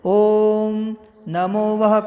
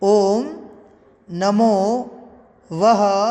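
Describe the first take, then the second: First: The phrase is recited at a normal, flowing pace. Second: The phrase is recited slowly, word by word.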